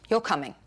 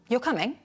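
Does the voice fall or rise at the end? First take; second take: fall; rise. First: The voice falls at the end. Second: The voice rises at the end. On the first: It is a decided statement. "With a falling tone, a falling intonation. This is a statement" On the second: It is a question checking something. "With a rising tone, on the other hand, it's a question"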